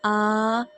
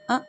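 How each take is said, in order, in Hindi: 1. स्वर लंबा खिंचा हुआ है। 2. स्वर झटके से जल्दी कट जाता है। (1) "हमें इस तरह अदा नहीं करना" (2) "ये जल्दी-जल्दी भी नहीं अदा करना"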